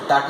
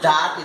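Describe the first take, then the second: First: The word has a reduced, weak vowel. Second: The word has a full, clear vowel. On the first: "is the weak form" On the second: "is the strong form"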